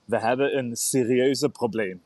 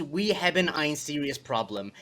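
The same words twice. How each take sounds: First: "We hebben een serieuze probleem" spoken as native Dutch; correct Dutch. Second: Slow American reading of the Dutch line; English-reader version. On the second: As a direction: read it slowly the way an English speaker would. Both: Shown as a demonstration. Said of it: "can you say that correctly in a Dutch accent".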